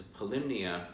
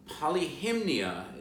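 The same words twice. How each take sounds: First: Polymnia said as puh-LIM-nee-uh; shortened pronunciation. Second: Polyhymnia said as polly-HIM-nee-uh; full pronunciation. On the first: Guide showing the shortened street name, polymnia as puh-LIM-nee-uh. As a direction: run polymnia together, stress on LIM. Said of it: "just shortened to polymnia". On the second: Guide giving the muse's name, Polyhymnia as polly-HIM-nee-uh. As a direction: give Polyhymnia every syllable, stress on HIM. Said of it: "is actually just shortened". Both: Shown as a demonstration.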